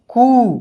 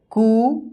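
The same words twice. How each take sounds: First: कू as the long ū, pitch falling; कू, long-ū step of a syllable drill. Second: कू as the short u, pitch lifting; कू, short-u step of a syllable drill. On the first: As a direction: recite कू with a falling, emphatic tune. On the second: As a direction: recite कू with a rising tune. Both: Shown as a demonstration. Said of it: "क की बारह खड़ी बन गया".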